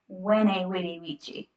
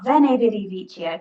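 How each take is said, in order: First: The words begin with a W sound. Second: The words begin with a V sound. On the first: The speaker calls it right. "Really, you should say it like" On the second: The speaker calls it wrong. "they pronounce it with a with a V"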